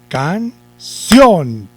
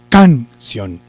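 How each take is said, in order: First: The stress is on the last syllable. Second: The stress is on the first syllable. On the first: The speaker calls it right. "corremos el acento eh, para la sílaba sion y decimos" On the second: The speaker calls it wrong. "si llevara el acento en la sílaba can, yo diría"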